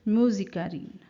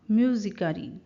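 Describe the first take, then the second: No difference in how they are said.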